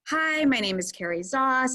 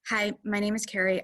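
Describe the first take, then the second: First: It is said in a warm, engaging tone. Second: It is said in a flat, dry tone.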